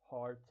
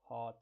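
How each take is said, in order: First: The R after the vowel is pronounced. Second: The R after the vowel is dropped. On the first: "in American accents we say" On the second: "in non-rhotic accents uh, people say"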